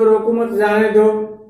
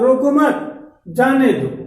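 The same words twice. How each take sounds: First: It is said evenly without a pause. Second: There is a pause after मत.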